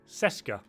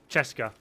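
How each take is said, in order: First: The word starts with an 's' sound. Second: The word starts with a 'ch' sound. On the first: The speaker calls it wrong. "I used to pronounce it Seska" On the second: The speaker calls it right. "No, it's it's it's Cheska, not Seska"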